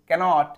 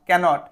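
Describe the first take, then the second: The two takes are said the same way.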